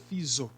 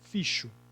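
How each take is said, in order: First: The X is sounded as z. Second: The X is sounded as sh. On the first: "Ele tem o som de Z? Não, seria fiso, se fosse Z" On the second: "Ele tem som de C H? Não, senão seria ficho"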